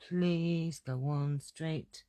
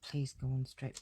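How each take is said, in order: First: Slow, stretched pleading on Please; slow hammed-up begging; drawn-out plea. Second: Said in the usual way. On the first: Real, not acted. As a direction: beg the stamp, dragging each word. Pleading with stamp block, drawn out.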